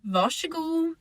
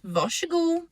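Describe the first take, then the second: First: The r and s merge into one sh sound. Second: The same.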